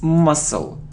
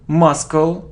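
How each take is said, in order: First: No K sound is heard in the middle. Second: A K sound is heard in the middle. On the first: The speaker calls it right. "We don't pronounce C" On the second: The speaker calls it wrong. "It isn't muscle"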